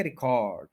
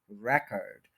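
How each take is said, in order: First: record with stress on the last syllable, "ri-KORD"; end stress. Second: record with stress up front, "REK-erd"; start stress. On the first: Teacher showing students the verb form, stress on the end of record. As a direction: say record as ri-KORD, long final vowel. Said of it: "verb है उसको एंड पे stress करेंगे". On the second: Teacher showing students the noun form, stress on the start of record. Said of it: "start में stress करेंगे". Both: Shown as a demonstration.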